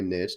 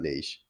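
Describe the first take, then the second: First: The word has a Southern, Tennessee-style pronunciation. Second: The word has a standard, non-Southern pronunciation. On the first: This is how the speaker himself says it. "I say niche" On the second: This is how the speaker does not say it. "not niche"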